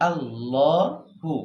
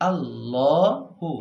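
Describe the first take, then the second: Both takes have the same delivery.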